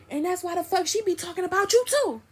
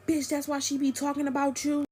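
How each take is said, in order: First: Much higher, heated retort; imitated high-pitched clapback; retold comeback. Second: High, needling quarrel voice; mock taunting jab; retold taunt. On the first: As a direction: fire it back as the quarrelling friend. Friend fires the taunt back. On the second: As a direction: imitate him throwing an accusation. Boyfriend taunts her in quarrel.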